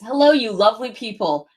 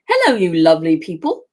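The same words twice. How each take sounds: First: It is said in the speaker's usual American accent. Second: It is said in a put-on English accent.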